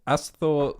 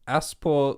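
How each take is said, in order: First: The middle consonant is a 'th' sound. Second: The middle consonant is a 'p' sound. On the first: The speaker calls it right. "That's a th" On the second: The speaker calls it wrong. "That's not a P"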